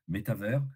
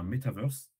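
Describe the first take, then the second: First: It is said with a fully French pronunciation. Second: It is said with an American English pronunciation. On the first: The speaker wants to sound thoroughly French. "Si tu veux être franco-français, tu dis" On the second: The speaker wants to show off. "Si tu le dis à l'américaine, ça devient"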